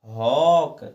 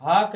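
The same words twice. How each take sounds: First: हॉक said loud with an open rounded aw vowel; teacher gives the right form हॉक, loud aw; correct reading. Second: हाक with a plain flat aa vowel; teacher shows the wrong form हाक with aa; wrong reading. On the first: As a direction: stress the aw in हॉक. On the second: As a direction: read हाक the wrong way, short aa. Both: Shown as a demonstration. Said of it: "हाक ना पढ़ के".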